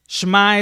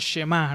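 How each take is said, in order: First: The sh runs straight into the m. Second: A short vowel comes between sh and m. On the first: This is closer to the original pronunciation. "Pero shma es una, es una pronunciación un poco más apegada" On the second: This is the way many people commonly say it. "muchas veces uh, literalmente lo pronuncian como shema"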